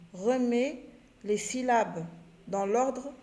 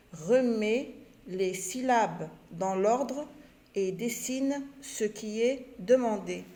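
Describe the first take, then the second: First: Each chunk said slowly and clearly to pupils; slow clear instruction reading. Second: Repeated slowly, word by word; slow repetition. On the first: Teacher reading the instruction to pupils, slow and clear. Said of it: "On lit la consigne". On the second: Teacher repeating the instruction to pupils, very slowly. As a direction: say it again very slowly for the class. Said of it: "Je répète". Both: Shown as a demonstration.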